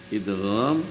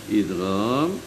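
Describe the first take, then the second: The two takes are said the same way.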